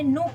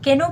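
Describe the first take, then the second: First: The word starts with an N sound. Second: The word starts with a K sound. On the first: The speaker calls it right. "मैंने नो पढ़ा" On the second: The speaker calls it wrong. "केनो पढ़ा क्या मैंने, नहीं"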